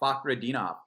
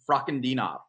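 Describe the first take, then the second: First: No R sound follows the first F. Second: An R sound follows the first F. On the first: The speaker calls it right. "It should be Fa- Fakhredinov" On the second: The speaker calls it wrong. "you said fra"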